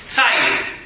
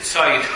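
First: The h sound is left silent. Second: The h sound is pronounced. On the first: The speaker calls it right. "It's Sayyid. Don't even pronounce the hay" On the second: The speaker calls it wrong. "you don't pronounce it Sayyid"

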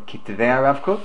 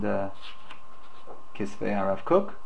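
First: It uses a Sephardic Hebrew pronunciation. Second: It uses a non-Sephardic Hebrew pronunciation.

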